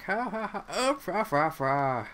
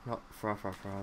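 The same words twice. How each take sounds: First: Higher, louder, slow mocking laugh-talk; mock silly laughter. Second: Said in the usual way. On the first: Imitating everybody's goofy laughing reaction, hammed up. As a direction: ham up a goofy chortle. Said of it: "everybody's like".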